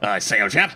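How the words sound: It is said in a gruffer army-officer voice.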